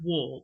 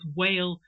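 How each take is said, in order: First: The name rhymes with 'wall'. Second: The name rhymes with 'whale'. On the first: "I'm going to say Wall" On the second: "I was saying both Whale and Wall"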